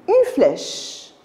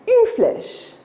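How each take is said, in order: No difference in how they are said.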